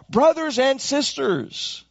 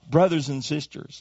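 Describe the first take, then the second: First: "brothers and sisters" drawn out slowly and lifted high, leaning on "brothers"; preacher lifting "brothers and sisters" up slow and high for the congregation; slow emphatic. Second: Said in the usual way. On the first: Shown as a demonstration. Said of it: "Let me just say to who you are". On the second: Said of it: "Let me just call you who you are".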